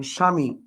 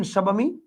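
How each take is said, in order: First: স্বামী as sha-mi, no b; lower, plain-stated "shami" for স্বামী; silent b. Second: স্বামী as sha-ba-mi, questioning; wrongly sounded b. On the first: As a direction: drop the ব in স্বামী. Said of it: "স্বামী বানানের নিচে ব ফলা আছে". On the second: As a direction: put a full b into স্বামী. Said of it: "বলেন না". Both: Shown as a demonstration.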